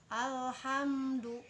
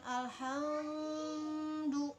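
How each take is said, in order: First: The m sound is pronounced clearly and distinctly. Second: The m sound is not pronounced clearly. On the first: The speaker calls it right. "itu mimnya dibaca jelas" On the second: The speaker calls it wrong.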